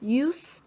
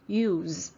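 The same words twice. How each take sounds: First: The final sound is a voiceless s. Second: The final sound is a voiced z. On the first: The word is used as a noun. "when this word is a noun, it's called use. So the last sound is voiceless" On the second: The word is used as a verb. "when it's a verb, the last sound becomes a voiced sound"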